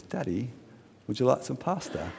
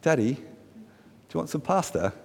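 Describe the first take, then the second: First: Put-on light, soft British accent. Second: Lightly imitated little girl, softer and lifted at the end; a hint of a small child asking Daddy; young daughter. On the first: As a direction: imitate a daughter with a touch of British politeness. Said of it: "I did a British accent just then". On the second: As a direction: gently mimic a daughter's sweet offer. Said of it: "she says".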